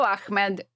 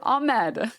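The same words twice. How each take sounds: First: The middle has a harsh K-like throat sound. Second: The middle has a soft H sound, no K. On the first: The speaker calls it wrong. "There's no K there" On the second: The speaker calls it right. "It's just Ahmed"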